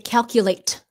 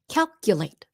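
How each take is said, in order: First: The final T is clearly released. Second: The final T is stopped, not released. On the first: The speaker calls it wrong. "So we don't say" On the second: The speaker calls it right. "The T at the end, stopped T"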